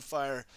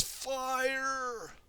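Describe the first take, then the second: First: Said in the usual way. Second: High drawn-out call; element cry. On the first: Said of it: "Or yelled". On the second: Acted. Kai calling his element for the tornado, high cry. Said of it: "Kai says".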